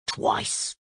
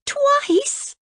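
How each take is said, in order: First: Whispered, lower crocodile aside. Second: Shocked cry, much higher; cried out. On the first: Crocodile admits to Cora in a soft whisper. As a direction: drop the word out softly, unvoiced. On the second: Cora cries out in shock at the crocodile. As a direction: gasp it out in disbelief. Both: Acted. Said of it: "cried Princess Cora".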